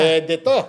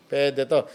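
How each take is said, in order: First: Excited. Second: Said in the usual way. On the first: Retold or imitated. Sudden realisation, "Boom!.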